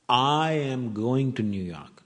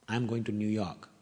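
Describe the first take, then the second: First: The word "I" is stressed. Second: No word is given special emphasis. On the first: The speaker is going, not the listener. "Not you" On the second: It is a simple statement. "It's a plain sentence"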